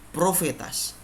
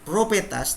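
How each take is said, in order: First: The middle consonant is an f sound. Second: The middle consonant is a p sound. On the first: The speaker calls it right. "tapi profetas" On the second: The speaker calls it wrong. "bukan propetas"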